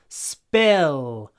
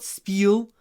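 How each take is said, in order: First: The vowel is said with an open mouth. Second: The vowel is said with a closed mouth. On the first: The speaker calls it right. "The mouth opens" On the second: The speaker calls it wrong. "It's not spill"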